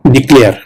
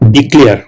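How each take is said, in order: No difference in how they are said.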